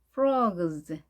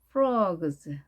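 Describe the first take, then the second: First: The vowel is a rounded, in-between o sound. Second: The same.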